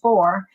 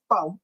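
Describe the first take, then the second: First: It is said in the speaker's own California accent. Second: It is said in an imitated Illinois local accent. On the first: This is how the speaker says it. "instead of saying for" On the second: This is how people in Illinois say it. "they go fo"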